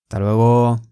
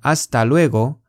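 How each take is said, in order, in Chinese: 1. "hasta"的"as"音被省略了。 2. "hasta"这个词是完整发音的。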